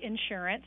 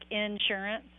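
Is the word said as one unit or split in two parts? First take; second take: one unit; two parts. First: The word is said as one smooth unit. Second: The word is split into two separate parts. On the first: The speaker calls it right. "say insurance. It's one word" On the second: The speaker calls it wrong. "I would make it two words, like insurance"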